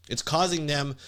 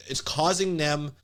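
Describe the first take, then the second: No difference in how they are said.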